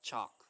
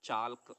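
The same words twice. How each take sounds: First: The L sound is left out of the word. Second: The L sound is pronounced in the word. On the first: The speaker calls it right. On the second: The speaker calls it wrong.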